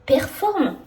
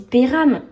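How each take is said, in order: First: The name sounds like 'Performe'. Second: The name sounds like 'Péram'. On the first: The speaker calls it right. "je pense que c'est Performe" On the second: The speaker calls it wrong. "J'ai dit Péram"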